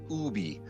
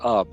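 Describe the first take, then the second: First: The name is said in its original pronunciation. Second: The name is said in an Americanized pronunciation. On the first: This is the name as officially spelled. "His his name officially is spelled U B B E" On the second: This is the form the name took in America. "that got Americanized into ub"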